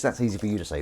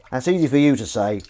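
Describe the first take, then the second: First: Said in the usual way. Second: Louder, stress on easy; emphatic. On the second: Shown as a demonstration. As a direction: punch the word easy.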